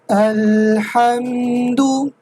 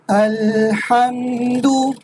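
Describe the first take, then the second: Both takes have the same delivery.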